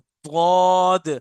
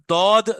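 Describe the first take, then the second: First: The first consonant is thick and heavy. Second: The first consonant is a plain, light d. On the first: The speaker calls it right. "जितना मोटा कर सकते हैं मोटा कर लें" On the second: The speaker calls it wrong. "दाल से तो नहीं पढ़ रहे ना"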